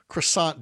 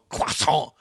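First: The word has a plain English pronunciation. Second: The word has an exaggerated French-style pronunciation.

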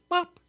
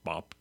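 First: The word is said in a high voice. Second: The word is said in a low voice. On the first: "You can say it in a high voice" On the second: "and you can say it in a low voice"

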